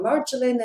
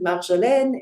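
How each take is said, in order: First: The name is said with an English pronunciation. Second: The name is said with a French pronunciation. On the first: "in English" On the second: "in French"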